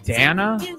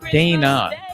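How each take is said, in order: First: The first vowel is a short A sound. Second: The first vowel is a long A sound. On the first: The speaker calls it wrong. "That's wrong" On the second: The speaker calls it right. "one N is a hard A"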